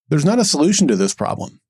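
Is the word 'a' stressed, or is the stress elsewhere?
elsewhere. The stress falls on a word other than 'a'. No solution to the problem exists. The speaker calls it wrong.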